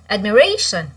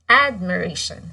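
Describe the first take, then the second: First: The stress is on a later syllable. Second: The stress is on the first syllable. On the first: The speaker calls it wrong. "we don't say admiration" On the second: The speaker calls it right. "It's in the first syllable"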